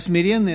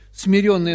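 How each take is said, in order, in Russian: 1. Ударный гласный звучит как 'ye'. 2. Ударный гласный звучит как 'yo'. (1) "это тот, кто себя смирил" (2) "это тот, кого смирили"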